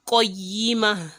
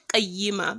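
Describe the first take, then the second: First: The first consonant is thick and heavy. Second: The first consonant is thin and light. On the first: The speaker calls it right. "qaf is a thick letter, so it is qa" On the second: The speaker calls it wrong. "Not qayyimah"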